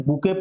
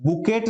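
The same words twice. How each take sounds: First: "बुके" with a silent t, ending in "ay"; correct pronunciation. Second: "बुकेट" with the final t sounded; wrong pronunciation. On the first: Teacher showing learners how it is read, "बुके" ending on the vowel. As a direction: say "बुके" as boo-KAY. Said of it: "बुके पढ़ते हैं". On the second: Teacher warning learners off a misreading, "बुकेट" with audible final t. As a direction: say "बुकेट" as boo-KET, hard t ending. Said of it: "नहीं पढ़ते हैं". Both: Shown as a demonstration.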